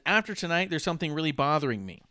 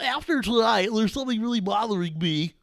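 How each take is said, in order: First: It is read in his own plain, flat voice. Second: It is read in an imitated character voice. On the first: "me dry reading this" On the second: "I'm doing Kenny voice"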